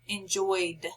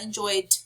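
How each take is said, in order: First: The ending is a plain D sound. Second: The ending is not a plain D sound. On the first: The speaker calls it right. "its sound is D" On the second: The speaker calls it wrong.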